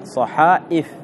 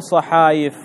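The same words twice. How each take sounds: First: صحائف with a glottal stop before the i; corrected hamza form. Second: صحايف with a y glide after long aa; wrong form with ya. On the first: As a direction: break صحائف cleanly at the hamza. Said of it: "يبدل الياء همزة". (نطق صحائف بتحقيق الهمزة) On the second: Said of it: "فما تقول صحايف". (نطق صحايف بالياء دون همزة) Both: Shown as a demonstration.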